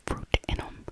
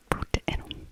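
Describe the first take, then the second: No difference in how they are said.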